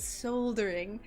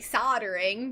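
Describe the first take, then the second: First: It is pronounced the non-American way. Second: It is pronounced the American way. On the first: "everyone else says soldering" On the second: "We say soldering"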